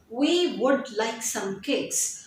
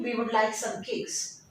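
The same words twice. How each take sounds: First: "We would like some cakes" spoken slowly, every word weighted; slow stressed content words. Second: Said in the usual way. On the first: Shown as a demonstration. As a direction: drag it out word by word. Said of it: "focus on the content and the structural words". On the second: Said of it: "how can you make this sentence".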